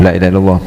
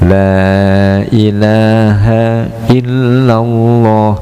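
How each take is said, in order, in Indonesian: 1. Vokal pada kata pertama dibaca pendek. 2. Vokal pada kata pertama dibaca panjang. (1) "Kalau dibaca pendek" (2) "la-nya harus dibaca panjang"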